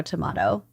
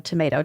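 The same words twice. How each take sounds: First: TOMATO said "tuh-MAH-toh", softer and lower; broad ah in the middle of tomato. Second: TOMATO said "tuh-MAY-toh"; long ay in the middle of tomato. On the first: Host shrugging off two pronunciations, tomato with an ah. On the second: Host shrugging off two pronunciations, tomato with an ay. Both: Shown as a demonstration. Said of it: "it's kind of tomato, tomato".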